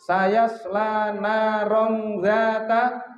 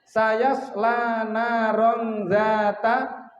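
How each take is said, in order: Both takes have the same delivery.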